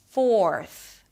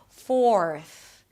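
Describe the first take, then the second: First: A clear 'or' vowel comes before the R. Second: The same.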